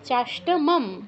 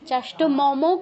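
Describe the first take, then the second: First: The word runs together and ends in bare m. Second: The word breaks and ends with an 'o' vowel. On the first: The speaker calls it right. "পরেরটা অর্ধ উচ্চারণ" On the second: The speaker calls it wrong. "চাষ্ট মমও কিন্তু নয়"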